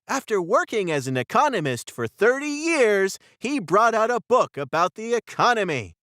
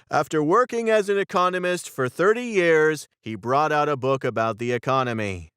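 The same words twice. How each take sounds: First: It is read in a happy, cheerful tone. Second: It is read in an unhappy, unenthusiastic tone.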